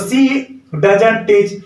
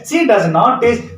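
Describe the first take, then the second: First: Does not is shortened to one word, doesn't. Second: Does not is said as two full words.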